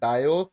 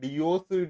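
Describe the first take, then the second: First: The first syllable sounds like 'dye'. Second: The first syllable sounds like 'dee'. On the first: The speaker calls it right. "ഡയോസ് എന്നാണ് correct പറയുന്നത്" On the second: The speaker calls it wrong. "എല്ലാവരും ഡിയോസ് ഡി അങ്ങനെയൊക്കെ എന്തൊക്കെ പറയുന്നുണ്ട്. പക്ഷെ അങ്ങനെയല്ല"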